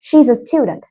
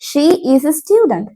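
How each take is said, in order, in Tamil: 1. She is ஒரே அசையாகச் சுருங்கிச் சொல்லப்படுகிறது. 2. She is என்பது இரண்டு முழுச் சொற்களாகச் சொல்லப்படுகிறது.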